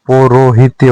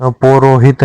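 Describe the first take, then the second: First: पौरोहित्य ending in tya; correct form. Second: पौरोहित ending on a bare t; no y after the t of पौरोहित; wrong form. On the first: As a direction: add a y glide after t in पौरोहित्य. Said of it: "होता है". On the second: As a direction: stop पौरोहित at hit. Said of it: "नहीं होता". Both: Shown as a demonstration.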